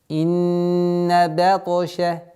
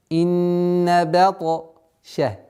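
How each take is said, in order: Both takes have the same delivery.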